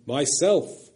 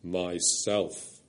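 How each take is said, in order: First: A louder, brighter ring of joy; loud, clear and glad. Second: Deep, low lion's word. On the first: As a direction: ring it out gladly. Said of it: "loud and clear and glad". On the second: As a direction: let the earth shake with it. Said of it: "very deep and low". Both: A narrator's reading.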